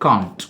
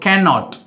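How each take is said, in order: First: It is said as one short contracted word. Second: It is said as two separate full words. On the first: "சுருக்கி என்ன பண்ணலாம் அப்படின்னா காண்ட் அப்படின்னு சொல்லலாம்" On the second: "கேனுக்கு பக்கத்தில் ஒரு நாட் போடணும்"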